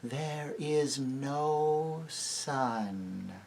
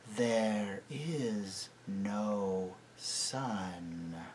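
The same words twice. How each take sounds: First: Very slow, grave pronouncement. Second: Very slow, soft, low voice; softer and deeper. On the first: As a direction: pronounce it with gravity. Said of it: "Slowly and gravely the witch repeated". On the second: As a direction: sink it down softly. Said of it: "in a softer and deeper voice". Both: A narrator's reading.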